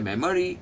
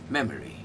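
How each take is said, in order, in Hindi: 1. ज़ोर पहले अक्षर पर नहीं है। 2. ज़ोर पहले अक्षर पर है। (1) "ये सब गलत है" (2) "सबसे उठाया हुआ है memory, ये दोनों दबे दबे"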